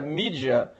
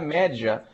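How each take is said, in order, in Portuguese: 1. É dito com uma pronúncia influenciada pelo inglês. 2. É dito com a pronúncia latina. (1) "a gente pronuncia mídia por nossa submissão ao inglês" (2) "em latim se pronuncia média"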